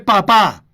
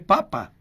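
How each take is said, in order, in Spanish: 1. La sílaba acentuada es la última. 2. La sílaba acentuada es la primera.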